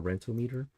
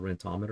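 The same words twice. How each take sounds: First: Rentometer said RENT-oh-MEE-ter; pronounced as rent-o-meter. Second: Rentometer said ren-TOM-uh-ter; stress on second syllable. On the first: Realtor offers other reading, Rentometer ending in MEE-ter. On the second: Realtor names a rent program, Rentometer stressed on TOM. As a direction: say Rentometer to rhyme with thermometer. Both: Shown as a demonstration. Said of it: "however you wanna pronounce that".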